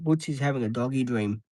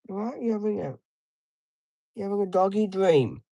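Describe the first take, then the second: First: Said in the usual way. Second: High sing-song pet voice; talking to a dog. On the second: Real, not acted. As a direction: coo at the dog, pitched up.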